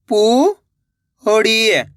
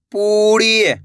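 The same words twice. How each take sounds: First: पू, long pause, ड़ी; पूड़ी split slowly, rising then falling; syllable by syllable. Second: पूड़ी joined, long vowels; blended word. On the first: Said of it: "एक अक्षर का उच्चारण करना है". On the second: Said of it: "तो मिलके बन जाएगा". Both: Shown as a demonstration.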